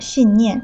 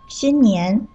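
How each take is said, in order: First: Both syllables have a falling tone. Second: The tones are high level, then rising. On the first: It means a firm belief. The speaker calls it wrong. "信念两个字都是四声" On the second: It means the new year. The speaker calls it right. "新是一声，年是二声"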